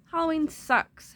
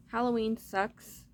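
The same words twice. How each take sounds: First: Playful exclamation. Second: Said in the usual way. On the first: Shown as a demonstration. Repeated louder and higher.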